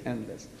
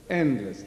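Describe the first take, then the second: First: A low, soft echo of the word before; fading echo. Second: Said in the usual way. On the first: Shown as a demonstration. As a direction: repeat it much lower and softer, dying away. Repeated word, dying away.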